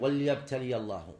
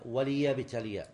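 First: وليبتلي misread as "wal-yabtali", lam vowelless; the common misreading "wal-yabtali" for وليبتلي; mistaken silent lam. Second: وليبتلي drawn out slowly as "wa-li-yabtaliya"; slow corrective "wa-li" in وليبتلي; corrected kasra. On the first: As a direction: drop the i after the lam in وليبتلي. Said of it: "يخطئ فيها بعض الذين يق". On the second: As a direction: sound a clear short i on the lam of وليبتلي. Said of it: "لا، هي". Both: Shown as a demonstration.

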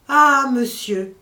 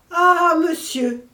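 First: Loud, slow anguished cry of alarm; terrible cry. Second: Higher, louder, slow anguished howl; the loudest, most terrified cry; terrible cry. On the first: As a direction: drag out a terrified wail. (cri terrible, fort et lent) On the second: (cri terrible, plus aigu et plus fort) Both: Acted. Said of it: "cria ces simples mots, mais trois fois répétés".

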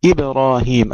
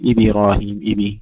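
First: إبراهيم with a silent, unvowelled ب; still ba. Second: إبراهيم said with a short i after the ب; wrong vowelled ba. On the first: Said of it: "القلقلة نبقي الباء فيها ساكنة". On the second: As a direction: mimic the faulty إبي reading. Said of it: "كما يقرأ بعض الإخوة". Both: Shown as a demonstration.

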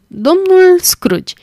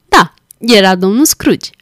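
First: Slow, high laughing guess of the name. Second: Said in the usual way. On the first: A narrator's reading. Wife teasing her husband with her guess, laughing. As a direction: tease him with the answer, laughing, drawn out. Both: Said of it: "adăugă ea râzând".

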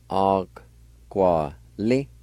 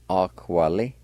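First: "Aquali" very slowly, in separated syllables; syllable-by-syllable pronunciation. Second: Said in the usual way. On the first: Shown as a demonstration. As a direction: break "Aquali" into drawn-out syllables. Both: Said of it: "it's pronounced like this".

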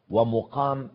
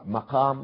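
First: ومقام said with a "u" after the mim, wa-muqam; damma on the mim. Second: مقام said with an "a" after the mim, maqam; fatha on the mim. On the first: Lecturer shows viewers the other reading, ومقام with "mu". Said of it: "بضم الميم". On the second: Lecturer shows viewers a Quranic reading, مقام with "ma". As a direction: open the first vowel of مقام to "ma". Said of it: "تقرأ مقام بالفتح". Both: Shown as a demonstration.

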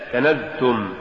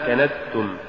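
First: Said in the usual way. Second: "كنزتم" with hissed s for z; zay becomes sin. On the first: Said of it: "استبدال الزاي بالسين". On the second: Shown as a demonstration. Teacher showing an error, "كنزتم" said with sin for zay. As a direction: devoice the z of "كنزتم" into s. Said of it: "تقرأ لحنا".

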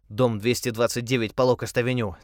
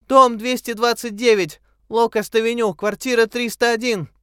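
First: Said in the usual way. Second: High, loud call from far away; a reply calling across the water; faint distant call. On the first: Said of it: "Он был поражён". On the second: A narrator's reading. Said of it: "Слабый, еле слышный ответ". (далёкий крик)

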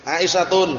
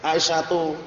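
First: Aisyatun read with a clear final -un nasal ending; wrong reading with nunation. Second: Aisyatu ending on a bare short u, no final n; correct reading. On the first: Teacher demonstrating the mistake to students, Aisyatun with -un. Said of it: "Bacanya apa kira-kira kalau nggak tahu hukumnya". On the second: Teacher showing the class the right form, Aisyatu without n. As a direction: say Aisyatu cleanly, dropping the n. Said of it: "Pasti bacanya apa". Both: Shown as a demonstration.

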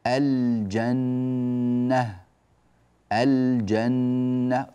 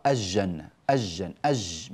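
First: الجنة with the ل held clearly before ج; very slow الجنة, lingering on ل and doubled ن; clear lam demo. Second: الجنة said as "ajjanna", ل dropped; mistaken assimilation. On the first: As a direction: sound every letter of الجنة, ل included. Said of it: "الجيم من الحروف التي تظهر عندها اللام". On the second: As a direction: swallow the ل of الجنة into a doubled ج. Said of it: "يحذف اللام ويدغمها". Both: Shown as a demonstration.

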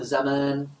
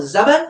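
First: زمان with a long second "aa"; long final vowel. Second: زمن with a short second "a"; short final vowel. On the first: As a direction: say زمان as za-maan, stretching the vowel. (نطق زمان بألف ممدودة بعد الميم) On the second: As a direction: say زمن as za-man, without stretching the vowel. (نطق زمن بفتحة قصيرة على الميم دون مدّ) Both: Shown as a demonstration. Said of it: "فهل يقال زمن ولا زمان".

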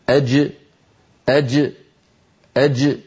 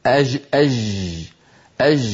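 First: أج from mid-tongue, sound and breath held; correct classical jim. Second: أج with the sound running on, not stopped; colloquial jim. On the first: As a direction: stop أج hard at the middle of the tongue. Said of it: "هكذا". (الجيم الفصيحة شديدة مجهورة) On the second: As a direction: let أج flow like dialect. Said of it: "ولا يقول أحدنا". (جيم عامية يجري معها الصوت) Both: Shown as a demonstration.

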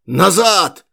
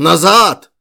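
First: Loud hoarse barked order; hoarse shout. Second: Very loud hoarse yell; hoarse shout. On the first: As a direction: yell it back at the crowd, hoarse. (сиплый крик) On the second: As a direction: bellow the order over the crowd. (сиплый громкий крик) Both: A narrator's reading. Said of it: "закричал он сиплым голосом".

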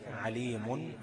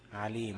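First: عليم with an audible -un ending, "aleemun"; tanween ending. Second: عليم stopped on a still final m, "aleem"; pausal ending. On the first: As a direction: pronounce عليم in connected recitation, sounding the final n. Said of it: "تنوين". (عليم بالتنوين وصلًا) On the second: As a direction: drop the tanween and close عليم on the m. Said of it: "لو وقفت عليها هتبقى ايه؟". (عليم بميم ساكنة وقفًا) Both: Shown as a demonstration.

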